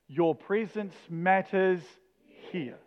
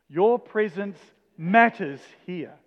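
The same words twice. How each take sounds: First: The stress falls on the word 'here'. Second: The stress falls on the word 'matters'. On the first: "each time we're going to put the emphasis on the next word" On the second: "each time we're going to put the emphasis on the next word"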